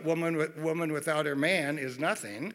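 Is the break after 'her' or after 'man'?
after man. The phrase breaks after the word 'man'. A woman is worthless without a man. "they saw woman without her man is nothing"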